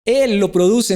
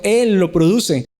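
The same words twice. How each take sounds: First: Said in the usual way. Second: Él stretched and stressed, slow falling close; slow emphatic restatement. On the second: Shown as a demonstration. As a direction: lean hard on Él and slow right down.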